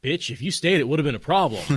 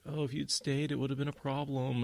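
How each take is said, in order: First: Loud, high mock assertion of dominance; forceful. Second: Higher, mild mock mealy-mouthed protest. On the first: Perrin's second try, asserting dominance over her, forceful. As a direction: punch it out forcefully, hammed-up. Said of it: "she responds to a forceful assertion of dominance". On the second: Perrin's first, weaker try at telling her, mealy-mouthed. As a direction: imitate a timid, noncommittal mumbler, pitched up. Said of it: "mealy mouth".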